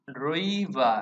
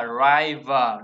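First: "river" said as ri-vuh; short i in river. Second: "river" said as rai-vuh; wrong "ai" in river. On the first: Teacher correcting the mistake, "river" with an i vowel. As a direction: keep an i sound in "river", never ai. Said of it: "âm y luôn". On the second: Teacher mimicking the mistake, "river" with an ai vowel. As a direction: make the first vowel of "river" rhyme with eye. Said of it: "không phải là river". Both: Shown as a demonstration.

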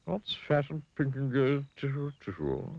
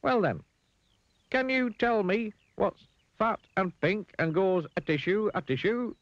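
First: Worried pig. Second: Very high, deliberate riddle voice; Mister Dizzy. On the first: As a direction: repeat it uneasily as the pig. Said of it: "looking worried". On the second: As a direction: pose the riddle slowly in a piping voice. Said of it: "smiled Mister Dizzy". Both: A narrator's reading.

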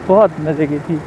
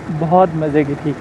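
No difference in how they are said.

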